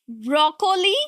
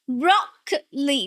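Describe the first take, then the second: First: The stress is not on the first syllable. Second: The stress is on the first syllable. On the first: The speaker calls it wrong. "You are tempted to say broccoli" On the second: The speaker calls it right. "the stress here is on the first one"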